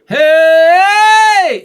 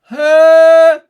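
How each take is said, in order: First: A bright belted shout with the larynx raised. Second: A darker shout with the larynx held low. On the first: The speaker calls it right. "if I did that again" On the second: The speaker calls it wrong. "if I keep my larynx low"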